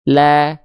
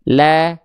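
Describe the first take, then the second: First: The vowel is thin, said with a slight smile. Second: The same.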